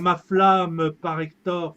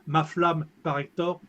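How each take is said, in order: First: The final e of flamme is sounded. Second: The final e of flamme is dropped. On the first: The speaker calls it right. "Il faut dire" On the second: The speaker calls it wrong. "et pas"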